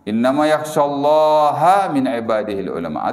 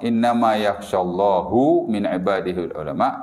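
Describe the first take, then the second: First: The word Allah ends with an 'a' vowel. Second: The word Allah ends with a 'u' vowel. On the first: The scholars fear God. The speaker calls it right. "Kalau kita baca baris atas, mansub" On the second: God fears the scholars. The speaker calls it wrong. "kalau kita baca baris hadapan"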